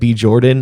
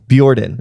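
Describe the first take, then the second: First: The B is said as a separate letter. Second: The B blends into the start of the name. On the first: "I think I may have said B. Jordan" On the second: "I go Bjordan"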